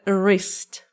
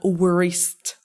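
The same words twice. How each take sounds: First: The word begins with no w sound. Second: The word begins with an audible w sound. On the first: The speaker calls it right. "W is silent here" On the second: The speaker calls it wrong. "not wrist"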